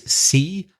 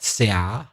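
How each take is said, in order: First: It is pronounced the English way. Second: It is pronounced as if spelled in Spanish. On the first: The speaker calls it right. "el mar is see" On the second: The speaker calls it wrong. "not sea"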